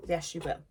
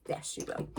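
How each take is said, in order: First: Said in the usual way. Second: A hushed, knowing whisper. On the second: Acted. To shoppers grabbing two, a sly whisper. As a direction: repeat it in a soft whisper.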